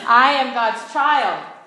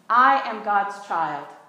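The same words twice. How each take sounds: First: It is said with more feeling and energy. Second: It is said plainly, with little feeling.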